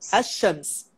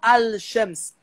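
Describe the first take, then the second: First: The l merges into a doubled sh sound. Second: The l is pronounced clearly before the sh. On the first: The speaker calls it right. "ele fala ash-shams" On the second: The speaker calls it wrong. "ele não fala al-shams"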